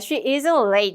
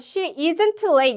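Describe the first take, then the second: First: The t in isn't is nearly silent. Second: The t in isn't is clearly pronounced. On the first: The speaker calls it right. "트 발음이 거의 안 난다고" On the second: The speaker calls it wrong. "이러면 안 되고"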